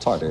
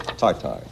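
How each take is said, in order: First: The word is said like English 'tartar'. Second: The word is said the French way. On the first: The speaker calls it wrong. "Not tartar" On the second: The speaker calls it right.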